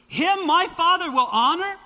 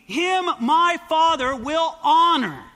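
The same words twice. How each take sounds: First: High and louder, questioning rise on Father; stunned rhetorical question; incredulous echo. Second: Slow, weighty reading ending in a fall; measured verse read, falling on honor; slow scripture reading. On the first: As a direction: repeat it as if you can't believe it. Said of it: "Are you kidding me?". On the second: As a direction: read it out solemnly, landing on honor. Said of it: "You and I can receive honor from God?". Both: Shown as a demonstration.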